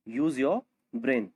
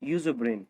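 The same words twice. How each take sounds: First: Slow model repeat. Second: Said in the usual way. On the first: Shown as a demonstration.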